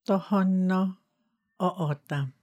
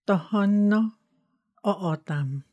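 The two takes are said the same way.

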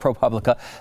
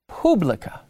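First: The first syllable rhymes with 'pub'. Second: The first syllable sounds like 'poob'. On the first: The name is said like the word Republican. "I've always called it ProPublica" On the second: The name is said the Latin way. "the Latin publica"

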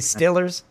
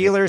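First: It is said with a Pittsburgh short i vowel. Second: It is said with a standard ee vowel.

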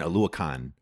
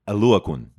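First: The last syllable sounds like 'con'. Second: The last syllable has an 'oo' vowel. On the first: The speaker calls it wrong. "like it's a f-ing video game convention or something" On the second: The speaker calls it right. "Because it's like a U at the end"

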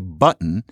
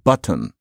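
First: The t is a glottal stop. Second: The t is a clear released t. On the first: "am I hearing people say button" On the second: "instead of button"

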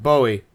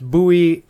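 First: The name does not rhyme with Louie. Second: The name rhymes with Louie. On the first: The speaker calls it wrong. "I'll pronounce it Bowie. Turns out I was wrong" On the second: The speaker calls it right. "absolutely pronounced Bowie to rhyme with Louie"

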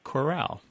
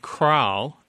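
First: The word is said with two full syllables. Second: The word is squeezed into one syllable. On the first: This is the usual pronunciation. "instead of" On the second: This is a regional variant pronunciation. "some people who also say cran also say"

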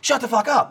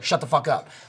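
First: It is said loudly, like a scream. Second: It is said calmly and casually.

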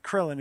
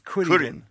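First: The name is said with an American pronunciation. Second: The name is said with a Japanese pronunciation. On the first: The speaker calls it wrong. "the character's name is not Krillin" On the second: The speaker calls it right. "it's Kurin"

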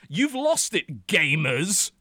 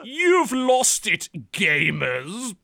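First: It is read in his ordinary voice. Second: It is read in an exaggerated put-on voice.

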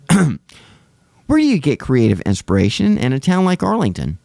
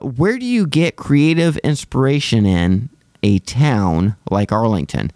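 First: It is read with natural, lively expression. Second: It is read flatly, like a robot. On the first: The speaker calls it right. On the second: The speaker calls it wrong.

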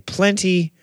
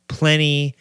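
First: The middle T sound is clearly pronounced. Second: The middle T sound is dropped. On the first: "You're going to never hear an American say plenty" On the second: "They're going to say"

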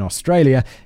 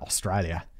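First: It is said in her ordinary American accent. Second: It is said in an Australian accent.

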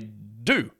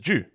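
First: It begins with a plain 'd', like 'doo'. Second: It begins with a 'j' sound, like 'jew'. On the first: "Americans say due" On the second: "That word that I say it as due"

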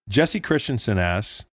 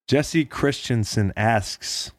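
First: The word asks is said loosely, not fully enunciated. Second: The word asks is crisply enunciated with every sound. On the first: The speaker calls it wrong. "I didn't say asks" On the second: The speaker calls it right.

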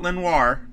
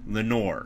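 First: The last syllable sounds like 'nwar'. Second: The last syllable sounds like 'nor'. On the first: The speaker calls it wrong. "Not Lenoir. I want to say Lenoir every time" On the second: The speaker calls it right. "the first time I've pronounced his last name correctly"

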